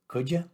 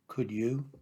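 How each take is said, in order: First: The two words blend into one reduced form. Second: Both words are said fully and separately. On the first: "Other common examples of reduced forms"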